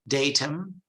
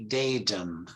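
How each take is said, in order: First: It has a British accent with a clear t. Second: It has an American accent with a softened t. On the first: "British English is datum" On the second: "American English they say datum"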